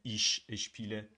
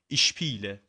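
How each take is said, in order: First: Both sh sounds are pronounced separately. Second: The two sh sounds merge into one. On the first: The speaker calls it wrong. "نمیگن ایش اشپیله" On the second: The speaker calls it right. "میگن ایشپیله"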